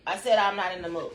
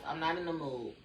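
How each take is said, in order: First: Said punched, louder and firm; louder firm repeat. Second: Said in the usual way. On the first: Real, not acted. Repeating her refusal to Lavin, louder and firmer.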